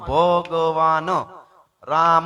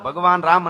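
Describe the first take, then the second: First: The phrase is read slowly and haltingly. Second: The phrase is read quickly and smoothly. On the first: This is how a slow, unschooled reader reads. "હું કેમ વાંચું ... એવી રીતે મારે એટલી વાર લાગે" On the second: This is how a fluent reader reads. "તમે વાંચતા હોય છે ત્યારે તમે એમ વાંચતા હશો"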